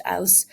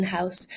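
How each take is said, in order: First: Ouse said with no H, opening straight on the vowel; dropped H. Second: Said in the usual way. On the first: Shown as a demonstration. Presenter demonstrating H-dropping, says ouse with no H. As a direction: drop the H: ouse, not house. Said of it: "dropping the letter H in house". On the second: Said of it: "so now it's pronounced ouse".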